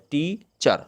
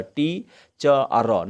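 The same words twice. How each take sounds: First: teacher slowly as टी, pause, चर; teacher in two parts, टी and चर; two syllables. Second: teacher over-split into टी, च, र; wrongly split in three. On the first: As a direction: split teacher cleanly into two beats. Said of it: "दो बार बोल सकते हैं". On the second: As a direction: say टी, च and र as separate slow pieces. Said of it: "नहीं कह सकते". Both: Shown as a demonstration.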